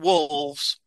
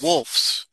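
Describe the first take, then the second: First: The word ends with a v sound. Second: The word ends with an f sound. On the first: The speaker calls it wrong. "not wolves" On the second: The speaker calls it right. "Wolfs, not wolves"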